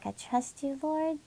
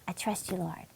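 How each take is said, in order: First: It rises at the end like a question. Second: It is said firmly, like an exclamation. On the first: The speaker doubts whether the trust is real. The speaker calls it wrong. "Not with a question mark" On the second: The speaker trusts with full confidence. The speaker calls it right. "You're saying it with an exclamation point"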